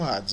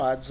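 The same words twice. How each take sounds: First: It begins with an audible H sound. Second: It begins with no H sound. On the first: "Eu prefiro não pronunciar Hades como Hades" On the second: "mas como Hades apenas"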